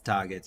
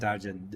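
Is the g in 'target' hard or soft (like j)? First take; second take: hard; soft. First: The g is a hard g sound. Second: The g is a soft j sound. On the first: The speaker calls it right. "people they know it. It's target" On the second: The speaker calls it wrong. "we were saying target. G is J"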